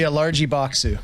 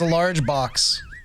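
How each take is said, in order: First: It is said in a mock Japanese accent. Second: It is said in the speaker's plain accent.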